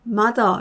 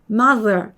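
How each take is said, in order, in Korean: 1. 가운데 자음은 d처럼 들려요. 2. 가운데 자음은 유성 th예요. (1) "편하게 D처럼 소리를 많이들 내셨어요" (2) "이빨 사이에 혀를 물어주셔야 돼요"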